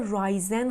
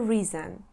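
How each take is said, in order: First: The first vowel sounds like 'eye'. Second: The first vowel sounds like 'ih'. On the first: The speaker calls it wrong. "رایزن خونده نمیشه" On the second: The speaker calls it right. "میشه ریزن"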